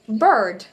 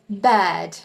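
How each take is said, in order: First: It is said in an American accent. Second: It is said in a British accent. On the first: "If you were to say this in an American accent" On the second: "But in the British accent"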